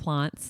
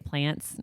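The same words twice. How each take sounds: First: It is said with a British accent. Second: It is said with an American accent.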